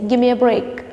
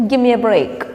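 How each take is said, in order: The two takes are said the same way.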